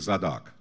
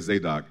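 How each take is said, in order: First: The name is said the Eastern way. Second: The name is said the American way. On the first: "The Eastern way would be Zadok" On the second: "Some Americans say Zadok"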